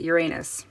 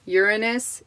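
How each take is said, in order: First: "Uranus" said as yoo-RAY-nus; stress on second syllable. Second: "Uranus" said as YOOR-uh-nus; stress on first syllable. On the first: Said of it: "Put the emphasis on the wrong syllable". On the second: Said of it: "that's how they pronounce it". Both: Shown as a demonstration.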